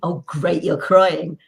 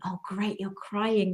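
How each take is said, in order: First: It sounds gleeful and gloating. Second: It sounds warm and caring.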